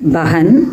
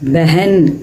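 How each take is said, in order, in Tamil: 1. முதல் அசையில் வெறும் 'a' உயிரொலி இருக்கிறது. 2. முதல் அசையில் குறுகிய 'e' உயிரொலி இருக்கிறது. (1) "அந்த ஸ்பெல்லிங் படி நம்ம கரெக்டாக தான் சொல்லியிருக்கிறோம்" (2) "நம்ம அந்த முதல் எழுத்தை வந்து ஏ அப்படிங்கிற குறில் ஒலியை கொடுக்குறோம்"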